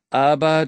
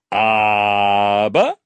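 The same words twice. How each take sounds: First: Said in the usual way. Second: Low, drawn-out mocking "Aber" with a rising end; King mocks the boy by stretching "Aber" low and rising. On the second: Mocking the boy's "Aber", the King drags it out low. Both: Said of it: "spottete er".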